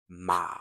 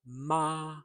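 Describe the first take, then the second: First: The tone is low. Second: The tone is high and level. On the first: It means horse. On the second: It means mother. "a high, steady tone"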